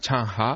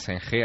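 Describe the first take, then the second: First: The name is said with Chinese-style sounds. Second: The name is read with Spanish-style sounds. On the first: This is how people in China say the name. The speaker calls it right. "allí se llama Chang Ha, allí es como lo pronuncia" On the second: This is how outsiders say the name. The speaker calls it wrong. "Allí no se llama Zheng He"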